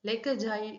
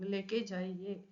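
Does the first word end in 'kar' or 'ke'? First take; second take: kar; ke. First: The first word ends with a full 'kar' sound. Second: The first word ends with a reduced 'ke' sound. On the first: "லேக்கர் ஜாயிங்கிறது எப்படி கேட்கணும்?" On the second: "பேச்சு வழக்குல சொல்லும்போது இந்த கர்ங்கிறது கே அப்படிங்கிற மாதிரி கேட்கும்"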